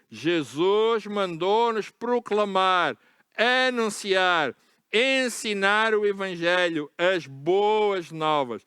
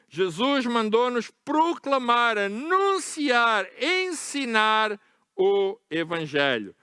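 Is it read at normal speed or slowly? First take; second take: slowly; normal speed. First: It is read very slowly. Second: It is read at normal speed.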